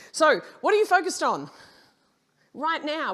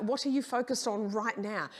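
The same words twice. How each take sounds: First: Loud and high, calling the room out; loud challenge. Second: Said in the usual way. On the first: Real, not acted. Speaker to audience, loud pressing question. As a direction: throw the question hard at the crowd. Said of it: "asks audience loudly". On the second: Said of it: "repeats question plainly".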